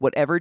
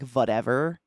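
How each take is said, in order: First: The word begins with a W sound. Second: The word begins with a V sound. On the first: "swapping the W sound, like whatever" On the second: "to a V, so it sounded like whatever"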